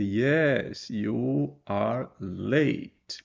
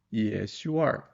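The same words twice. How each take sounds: First: "Yes, you are late" dragged out very slowly; overlong answer, dragged. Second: Said in the usual way. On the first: Shown as a demonstration. Teacher showing the too-long answer, very slowly. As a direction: drag out the unnecessary full answer. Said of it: "Você não precisa dizer". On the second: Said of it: "é você dar uma resposta curta".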